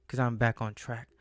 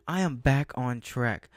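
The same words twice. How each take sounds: First: Said in the usual way. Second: Slow, leaning hard on "am"; "I am back on track", every word slow and firm, "am" hit hardest; stress on AM. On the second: Real, not acted. Vlogger insists to viewers she's back on track, stress on am.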